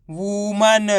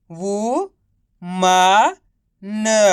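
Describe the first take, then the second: First: woman with no breaks inside; blended word. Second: Drawn-out वू, मा, न, pausing after each; syllable by syllable. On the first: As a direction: say woman joined up as one word. (Woman को मिलाकर एक शब्द में) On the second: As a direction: sound out वू, मा, न separately. (वू, मा, न को अलग-अलग खींचकर) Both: Shown as a demonstration. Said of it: "तो मिलके बन जाएगा".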